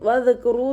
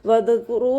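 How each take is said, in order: No difference in how they are said.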